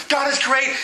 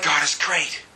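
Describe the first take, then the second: First: High, keen declaration of praise; exultant psalmist. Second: Low, unexcited mock praise; half-hearted congregation. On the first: Retold or imitated. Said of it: "sometimes it's like". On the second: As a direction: say it low, without any zeal. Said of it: "We're like".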